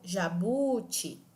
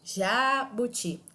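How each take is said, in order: First: The middle syllable is drawn out and stressed. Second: The first syllable is drawn out and stressed. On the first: "tampouco jabuti. Fica estranho essa pronúncia" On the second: "eu não digo jabuti"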